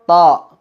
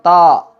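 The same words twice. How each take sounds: Both takes have the same delivery.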